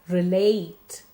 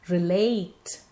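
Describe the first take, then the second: Both takes have the same delivery.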